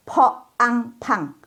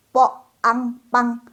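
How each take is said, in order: First: Po ang pang, puff on each p; slow po ang pang, air bursting out; aspirated p. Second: Po ang pang, no air on p; slow, level po ang pang, tight p; unaspirated p. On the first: Teacher drilling po ang pang, aspirated. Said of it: "udaranya keluar semua". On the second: Teacher drilling po ang pang, unaspirated. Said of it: "Tadi kan nggak keluar udara". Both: Shown as a demonstration.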